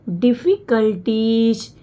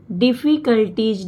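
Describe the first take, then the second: First: डिफिकल्टीज said slowly, syllable by syllable; pronouncing slowly. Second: Said in the usual way. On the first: Shown as a demonstration. Teacher modelling the word for students, slow and clear. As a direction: stretch out डिफिकल्टीज as one careful word. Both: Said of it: "तोड़ के पढ़ना है।".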